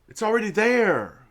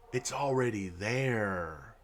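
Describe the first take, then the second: First: Higher and louder, hammering "there" with a falling end; exasperated outburst. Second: Low and soft, slowed down, under the breath; quiet, slow aside. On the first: To viewers about the transformative goal, an exasperated loud repeat. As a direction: blurt it out, fed up. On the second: To viewers about the goal, a soft slow mutter. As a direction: mutter it slowly to yourself first. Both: Real, not acted. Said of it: "keeps bringing up the transformative goal".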